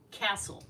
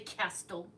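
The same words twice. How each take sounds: First: The t in the middle is silent. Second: The t in the middle is pronounced. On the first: The speaker calls it right. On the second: The speaker calls it wrong.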